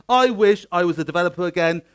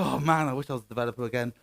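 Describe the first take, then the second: First: "I wish" punched louder, the rest firm; emphatic wish. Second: Quick, lower aside in a regretful developer's words. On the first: Real, not acted. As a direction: hit "I wish" hard as your own declaration. Repeats the wish emphatically as himself. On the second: Acted. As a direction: toss off the wish quickly and low. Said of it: "then you will go".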